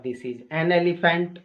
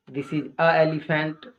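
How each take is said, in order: First: "an elephant", n linking into the vowel, slowly; correct article demo. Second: "a elephant", vowel meeting vowel, slowly; incorrect article demo. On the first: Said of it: "सही sentence होगा". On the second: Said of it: "गलत sentence है". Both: Shown as a demonstration.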